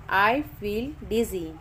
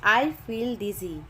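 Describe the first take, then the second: No difference in how they are said.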